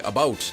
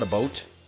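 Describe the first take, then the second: First: It is said in a natural Canadian way. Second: It is said as the stereotyped 'a boot'.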